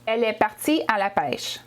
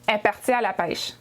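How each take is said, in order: First: The opening pronoun is said aloud. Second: The opening pronoun is left out.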